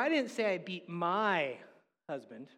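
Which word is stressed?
my. The stress falls on the word my. The person beaten was someone else's husband. "she sounded like she beat somebody's husband"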